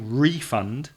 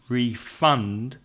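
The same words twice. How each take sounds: First: The stress is on the first syllable. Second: The stress is on the second syllable. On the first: It is used as a noun. "The stress is on the first syllable" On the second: It is used as a verb. "change the stress to the second syllable"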